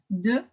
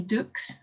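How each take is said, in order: First: The word ends without any X sound. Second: The word ends with an audible X sound. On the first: The speaker calls it right. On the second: The speaker calls it wrong.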